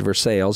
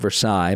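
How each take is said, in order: First: It is said the local Kentucky way. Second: It is said a non-Kentucky way. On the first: This is how locals say the town's name. "in Kentucky we do pronounce it Versailles" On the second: This is how locals do not say the town's name. "not Versailles"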